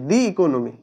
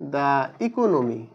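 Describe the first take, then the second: First: 'The' is said with a long 'thee' vowel. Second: 'The' is said with a short 'thuh' vowel. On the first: The speaker calls it right. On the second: The speaker calls it wrong.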